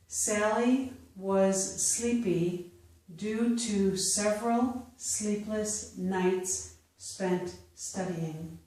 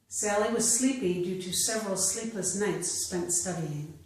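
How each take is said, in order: First: The sentence is read slowly. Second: The sentence is read at natural speed. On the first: "I will first read them slowly" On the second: "a second time at a more natural pace"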